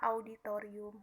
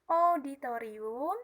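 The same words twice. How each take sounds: First: The first vowel is said as the diphthong au. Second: The first vowel is said as a plain o. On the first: The speaker calls it right. "yang sebenarnya harus dibaca auditorium" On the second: The speaker calls it wrong. "pengucapan auditorium"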